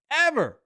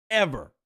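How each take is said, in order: First: "Ever" shouted high and loud as its own word; emphatic repeat. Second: Said in the usual way. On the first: Shown as a demonstration. Host insisting to Hemi it was amazing, loud emphatic repeat. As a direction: punch "Ever" hard.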